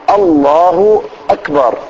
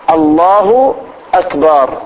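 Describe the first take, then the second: The two takes are said the same way.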